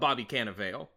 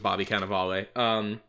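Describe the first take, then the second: First: The name gets a letter-by-letter, spelling-based pronunciation. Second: The name gets its usual, commonly heard pronunciation. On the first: The speaker calls it wrong. "it's spelled Bobby Cannavale. And that's how I pronounced it for a while" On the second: The speaker calls it right. "I heard it being pronounced as Bobby Cannavale"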